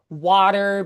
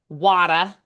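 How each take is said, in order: First: The final R sound is pronounced. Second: The final R sound is dropped.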